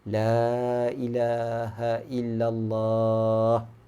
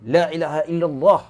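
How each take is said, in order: First: It is said loudly but gently. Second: It is said loudly and harshly.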